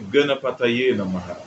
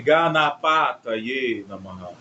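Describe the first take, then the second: First: The A vowels are short and relaxed. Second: The A vowels are long and fully open. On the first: The speaker calls it right. "é" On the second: The speaker calls it wrong. "não é"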